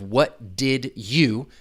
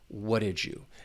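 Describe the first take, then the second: First: Each word is said separately without blending. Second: 'Did you' blends into a j sound. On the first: "I'm just trying to pronounce those individual words" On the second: "it's going to sound a little like j"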